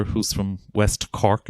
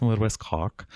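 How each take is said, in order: First: Said in the usual way. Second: A light imitation of a West Cork accent on "Oh, West Cork". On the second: Showing the audience how West Cork people talk, mild West Cork accent. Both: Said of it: "They, they speak like this".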